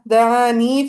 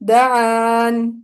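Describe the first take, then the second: First: The word ends with a long ee vowel. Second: The word ends on the n sound. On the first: The reading continues into the next words. "वसलन कैसे पढ़ेंगे? वो पढ़ेंगे" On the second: The reader stops on this word. "अगर उन्होंने वक्फ कर दिया तो पढ़ेंगे"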